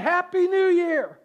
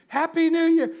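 First: High, loud New Year cheer; new year countdown crowd. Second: High, loud New Year cheer; big party cheer at midnight; new year countdown crowd. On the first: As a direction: shout it like a party crowd at midnight. Midnight cheer. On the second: Repeated cheer. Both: Pretend.

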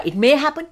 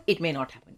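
First: "may" lifted high and louder, tune rising; stress on MAY. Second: "may not" dropped softer, tune falling to the end; falling counterpart. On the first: Podcaster punning on the Prime Minister's name, raised "may". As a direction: hold the possibility open on "may". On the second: Podcaster punning on the Prime Minister's name, falling "may not". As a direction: close the alternative down on "not happen". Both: Shown as a demonstration. Contrasts two outcomes of "May.

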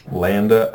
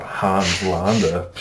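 First: Landa with a flat "a" as in "land"; alternative pronunciation. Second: Hans Landa with broad "ah" vowels; alternative pronunciation. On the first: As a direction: say Landa as "LAN-duh". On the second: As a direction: say Landa as "LAHN-duh". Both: Shown as a demonstration. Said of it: "I don't know how to say it".

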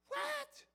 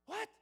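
First: A much higher cry on What; shocked son. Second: Said in the usual way. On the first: Acted. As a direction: disbelief bursts out. Son shocked by father's news.

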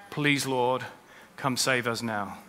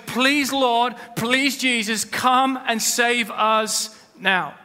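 First: Lower, softer plea, almost to himself; soft prayer. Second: Raised, higher pleading cry, dragged out at the end; crowd's plea. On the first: Preacher modelling the congregation's own soft plea to God. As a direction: pray it quietly and earnestly. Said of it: "we need to cry out to God". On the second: Preacher voicing the Jerusalem crowd's pleading cry. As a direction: call out to the Lord as the crowd under Roman rule. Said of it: "They were saying". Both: Acted.

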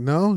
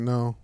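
First: "No?" raised as a doubtful question. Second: Said in the usual way. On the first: Retold or imitated. Storyteller checking with his roommate, questioning "No?". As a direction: ask "No?" as if checking.

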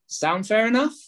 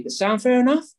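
First: "Sound fair enough?" ending on a high rise; rising tonality. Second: "That sound fair enough?" with a sharp high rise on "enough"; rising tonality. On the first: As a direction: sweep "enough" upward, inviting a yes. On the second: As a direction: make it a friendly rising question. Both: Shown as a demonstration. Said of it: "you have to say it in that tonality".

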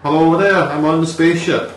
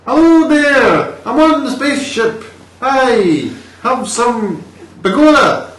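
First: Mock Danish accent, a little higher and louder. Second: Very high, loud, drawn-out Danish-Irish mash-up; Danish-Irish accent. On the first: Demonstrating for the co-host, Danish accent. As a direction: try a light comic Danish accent. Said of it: "So a Danish accent would be". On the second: Replicating the film actor's voice, hammed-up Danish-Irish accent. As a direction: belt out a silly Danish accent turning Irish. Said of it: "if you have a Danish to an Irish". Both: Shown as a demonstration.

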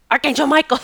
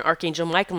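First: "Archangel Michael" called out higher and louder; commanding call. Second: Said in the usual way. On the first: Retold or imitated. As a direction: summon "Archangel Michael" like an order. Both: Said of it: "I'm screaming".

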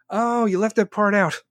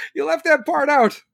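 First: Said in the usual way. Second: Higher, louder, pointed repeat; sarcastic repeat. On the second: Real, not acted. Repeating the catch to viewers, higher and louder. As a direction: hammer home the catch with a sneer.

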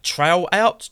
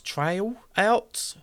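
First: Trying out Trail Out, rising on out; high, puzzled Trail Out?; questioning pronunciation. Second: Testing Trail Out a second way; higher, softer retry of Trail Out?; alternative pronunciation. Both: Shown as a demonstration. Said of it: "however you pronounce that in your regions".

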